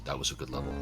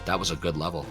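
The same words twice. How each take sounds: First: It is said in a put-on character voice. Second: It is said in the speaker's ordinary voice.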